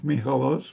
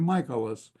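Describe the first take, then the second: First: The surname is given its original Greek pronunciation. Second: The surname is given an Americanized pronunciation. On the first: This is how the family name is said in Greece. "he tried calling himself Michalos" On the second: This is how Americans read the name. "people would see the name and they'd say Michaelis"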